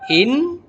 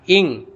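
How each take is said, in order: First: The n sound is pronounced clearly. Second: The n sound becomes an ng sound. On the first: "Bukan in" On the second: "bukan ing"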